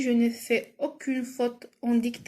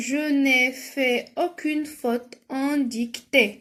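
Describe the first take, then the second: First: Said in the usual way. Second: Very slow, carefully separated words; measured classroom dictation, drawn out; slow dictation reading. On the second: Shown as a demonstration. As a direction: read it out slowly for pupils writing. Reads exercise sentence for spelling.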